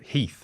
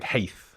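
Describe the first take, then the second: First: The vowel is a long ee sound. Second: The vowel is an ay-like sound. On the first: This is the present-day pronunciation. "things like Heath" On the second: This is the older Middle English pronunciation. "more like Haith"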